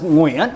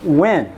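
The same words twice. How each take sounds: First: It is said with a Vietnamese pronunciation. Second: It is said with an Americanized pronunciation. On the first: "in Vietnamese, it's pronounced Nguyen with lots of kinds of intonations" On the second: "Americans eventually found an Americanized pronunciation of it"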